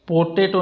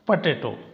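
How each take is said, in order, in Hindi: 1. पहला स्वर पूरा 'o' की आवाज़ है। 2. पहला स्वर छोटा और दबा हुआ 'uh' की आवाज़ है। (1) "पोटेटो नहीं बोलते" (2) "सही उच्चारण होता है इसका पटेटो"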